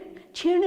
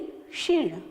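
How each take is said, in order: First: The word begins with a 'ch' sound. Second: The word begins with a 'ksh' sound. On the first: The speaker calls it wrong. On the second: The speaker calls it right.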